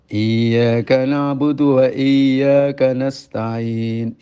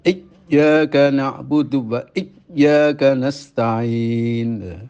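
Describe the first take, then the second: First: The doubled 'y' is said weakly without pressure. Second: The doubled 'y' is pressed hard and cut short. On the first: "salah tidak menekan" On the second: "Kalau dibaca terlalu menekan"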